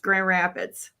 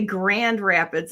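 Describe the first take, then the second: First: Sounds are dropped and run together loosely. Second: Every sound is pronounced carefully and fully. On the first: The speaker calls it right. "it's Grand Rapids every time" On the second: The speaker calls it wrong. "we don't say Grand Rapids"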